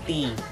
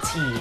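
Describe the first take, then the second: First: The t is said without a puff of air. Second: The t is said with a puff of air. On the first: "ang Filipino tea dili kay aspirated" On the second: "Di pareha sa British nga na t"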